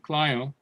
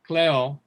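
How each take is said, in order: First: The word has its older Greek pronunciation. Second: The word has its modern Greek pronunciation. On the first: "instead of klio" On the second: "it's the same word in modern Greek, pronounced a little bit different. Kleo instead of klio"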